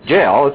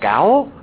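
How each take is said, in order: First: It starts with a j sound and rhymes with mail. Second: It starts with a hard g and rhymes with owl. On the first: The speaker calls it right. "But it's pronounced jail" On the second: The speaker calls it wrong. "I had no idea how to pronounce that"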